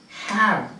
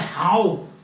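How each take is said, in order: First: The vowel is the short 'a' of apple. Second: The vowel is not the short 'a' of apple. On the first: The speaker calls it right. "The pronunciation is have" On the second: The speaker calls it wrong. "Don't say how"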